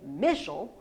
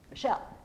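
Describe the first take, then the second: First: The stress is on the first syllable. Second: The stress is on the second syllable. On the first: The speaker calls it wrong. "I don't say Michel. I don't put the stress on the meh part" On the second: The speaker calls it right. "I put the oomph on the shell part"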